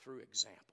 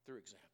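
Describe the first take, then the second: First: Said in the usual way. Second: "through example" repeated much softer, fading away; soft echo. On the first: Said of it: "sometimes Christ spoke". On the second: Shown as a demonstration. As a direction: let the repeated "through example" die down to a hush.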